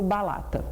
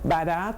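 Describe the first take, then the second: First: The middle consonant is an L sound. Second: The middle consonant is an R sound. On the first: This is how the child actually says it. "eu falo balata" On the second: This is the word the child intends to say. "eu vou falar barata"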